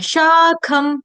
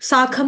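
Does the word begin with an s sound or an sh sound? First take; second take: sh; s. First: The word begins with a hushing sh sound. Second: The word begins with a hissing s sound. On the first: The speaker calls it right. "श का करना है, श शरबत वाला" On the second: The speaker calls it wrong. "यहाँ पर साखम नहीं है"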